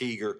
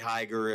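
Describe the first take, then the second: First: The first vowel sounds like 'ee'. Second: The first vowel sounds like 'eye'. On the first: This is how the name is actually said locally. "but it's not. It's Heeger" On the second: This is the textbook pronunciation of the name. "you'd say Heiger if you were pronouncing it correctly"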